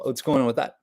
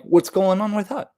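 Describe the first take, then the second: First: Said in the usual way. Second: Higher-pitched, lilting question rising on THAT. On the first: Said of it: "you don't say it like". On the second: Shown as a demonstration. Showing listeners how it's more likely said, high questioning lilt. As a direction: lift "What's going on with that" up high, rising at the end. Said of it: "it's more of like".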